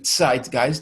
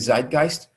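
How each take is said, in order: First: The word begins with a ts sound. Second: The word begins with a z sound. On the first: "The Z is pronounced as T S in German" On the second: "people in English say Zeitgeist"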